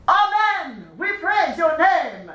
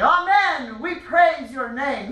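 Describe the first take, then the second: First: Higher, proud declaration, slow. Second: Strong, proud chant, slow on praise. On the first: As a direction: declare it proudly like a warrior king. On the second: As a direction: call it out like a proud king. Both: Shown as a demonstration.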